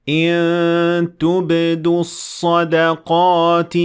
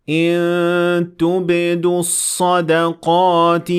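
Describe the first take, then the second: No difference in how they are said.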